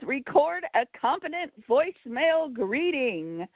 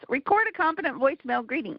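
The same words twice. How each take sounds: First: It is said in a showy game-show-host voice. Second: It is said in a plain, normal reading voice. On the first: "I already did that in my game show voice" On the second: "I'm going to read this now in my normal voice"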